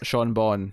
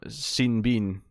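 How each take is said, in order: First: Both names share an aw vowel. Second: Both names share an ee vowel. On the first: "Either that or Sean, Sean Bon" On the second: "I want to call him Scene Bean"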